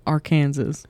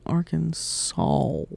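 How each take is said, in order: First: "Arkansas" as ar-KAN-zis; forbidden Kansas pronunciation. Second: Slow "Arkansas" as ar-kun-SAWL; drawn-out saw ending. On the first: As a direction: sound "Arkansas" like Kansas, final S heard. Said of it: "get fined if you say". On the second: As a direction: stretch the end of "Arkansas" into "sawl". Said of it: "where they get". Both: Shown as a demonstration.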